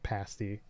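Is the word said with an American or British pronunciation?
British. It is pronounced the British way. The speaker calls it right. "that's the British way of pronouncing it"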